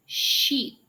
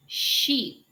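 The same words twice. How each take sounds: First: Sheep with a clear sh onset; sheep, slow model word. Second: Sheep repeated clearly; sheep, careful repeat; sheep, teacher model. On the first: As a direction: sheep for repeating. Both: Shown as a demonstration. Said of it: "let's try some practice words".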